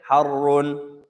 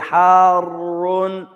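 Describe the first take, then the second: First: The first vowel is cut short. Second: The first vowel is held long. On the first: "take the alif away" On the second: "You can say Harun"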